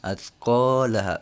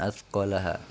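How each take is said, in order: First: The vowel after the l is held long. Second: The vowel after the l is cut short. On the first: The speaker calls it right. "Alifnya di jangan lupa dibaca lagi ya" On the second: The speaker calls it wrong.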